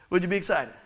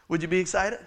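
The two takes are said the same way.

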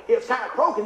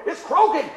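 First: Said in the usual way. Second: Higher and louder, comically insistent; louder retold repeat. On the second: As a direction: raise your voice for the mechanics. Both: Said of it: "Do it louder".

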